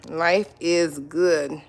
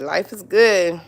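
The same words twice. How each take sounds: First: Slow and savoring. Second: Said in the usual way. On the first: Real, not acted. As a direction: stretch out Life is good very slowly. Savoring that life is good.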